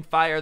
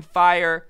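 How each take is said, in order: First: Said in the usual way. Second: Loud shout of fire; alarmed partygoer yelling fire; retold scream. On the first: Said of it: "everybody screaming". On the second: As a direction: yell fire as a panicked guest. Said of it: "people are screaming".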